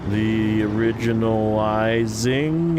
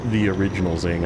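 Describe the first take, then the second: First: The name ends with the suffix -izing. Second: The name ends with a separate word, Zing. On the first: The speaker calls it wrong. "people always like say it wrong" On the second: The speaker calls it right. "Just say Zing"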